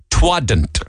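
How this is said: It is squeezed into one Cork word. "We'd say twadn't"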